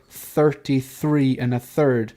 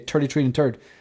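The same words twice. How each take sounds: First: The th sounds are clearly pronounced. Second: The th sounds are said as t, quickly. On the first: The speaker calls it right. "you're supposed to say" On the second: The speaker calls it wrong. "we just speak really fast and we say"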